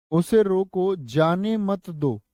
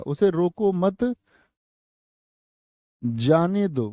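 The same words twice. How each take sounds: First: "उसे रोको", short break, then slow "जाने मत दो"; pause after रोको. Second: "उसे रोको मत", long pause, then "जाने दो"; pause after मत. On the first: Teacher shows class how punctuation changes meaning, pause after रोको. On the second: Teacher shows class the other punctuation, pause after मत. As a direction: join मत to रोको and break before जाने. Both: Shown as a demonstration. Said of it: "विराम चिन्ह अलग होगा".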